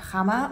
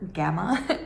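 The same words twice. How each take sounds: First: The name is said with a Dutch pronunciation. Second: The name is said with a non-Dutch pronunciation.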